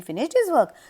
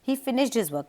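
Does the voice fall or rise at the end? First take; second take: rise; fall. First: The voice rises at the end like a question. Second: The voice falls at the end like a statement. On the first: It is meant as a question. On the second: It is a plain statement.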